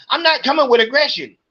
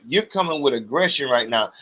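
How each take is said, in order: First: High, fast, snippy retort; mimicking the clerk's indignant denial; mocking the clerk. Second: Said in the usual way. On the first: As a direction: throw her denial back high and quick.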